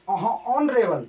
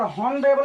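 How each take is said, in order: First: The word begins without an h sound. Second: The word begins with an h sound. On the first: The speaker calls it right. "एस silent है इसलिए क्या पढ़ेंगे ऑनरेबल" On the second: The speaker calls it wrong. "हॉनरेबल नहीं पढ़ेंगे क्योंकि ये गलत माना जाएगा"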